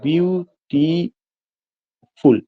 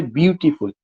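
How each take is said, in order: First: "beautiful" very slowly as beau, ti, ful with clear pauses; "beautiful" pulled apart, stopping after each syllable; split into syllables. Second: Said in the usual way. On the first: Shown as a demonstration. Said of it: "view पे जाके पहला sound रुकता". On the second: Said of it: "एक शब्द है".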